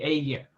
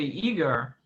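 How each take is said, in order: First: The name is said with a Hungarian pronunciation. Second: The name is said with an English pronunciation. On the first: The speaker calls it right. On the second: The speaker calls it wrong.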